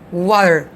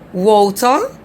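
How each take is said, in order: First: The t is softened and the r is sounded. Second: The r is dropped and the t is clear. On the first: "the American accent is water" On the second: "British accent like water"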